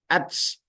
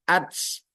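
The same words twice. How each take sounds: First: The final t is released with a hissing s sound. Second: The same.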